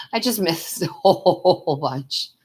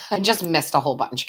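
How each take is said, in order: First: Laughing it out, slowly, stretching the whole; giggling through the words at her own slip. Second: Said in the usual way. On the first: Real, not acted. To viewers after missing their chat, laughing.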